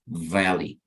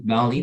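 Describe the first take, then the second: First: The first consonant uses teeth and lip, like V. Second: The first consonant sounds like a B. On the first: The speaker calls it right. "you would say more like valley" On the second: The speaker calls it wrong. "it's not valley"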